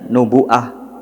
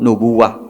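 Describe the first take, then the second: First: The middle has a glottal stop. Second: The middle has a w sound. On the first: "yang membacanya dengan hamzah" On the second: "hamzahnya diganti menjadi wawu"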